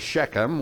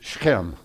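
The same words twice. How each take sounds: First: It is said as two separate syllables. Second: It is said as one crunched, throaty syllable. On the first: "we make it a two-syllable word" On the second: "in Hebrew... it's just a single word, and it's all crunched together"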